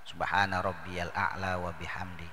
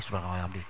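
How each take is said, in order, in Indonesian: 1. Frasa itu diucapkan dengan tenang dan utuh. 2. Frasa itu diucapkan cepat dan terpotong-potong. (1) "cukup satu kali" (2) "tapi buru-buru"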